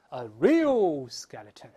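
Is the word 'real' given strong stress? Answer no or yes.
yes. The word real is strongly stressed. The speaker calls it right. "是重读a real skeleton"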